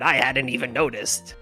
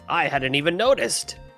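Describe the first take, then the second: First: It is said in a pirate voice. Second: It is said in a plain, unaccented voice.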